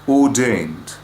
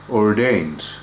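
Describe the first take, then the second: First: The R after the vowel is not pronounced. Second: The R after the vowel is clearly pronounced.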